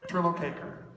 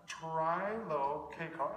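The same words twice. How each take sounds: First: Trilocaker said firmly, falling at the end; corrected name. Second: Trilokekar sounded out slowly, syllable by syllable; careful slow try. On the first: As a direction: repeat Trilocaker as you were just told. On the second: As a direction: spell out Trilokekar slowly, unsure. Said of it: "everybody butchers this". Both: Shown as a demonstration.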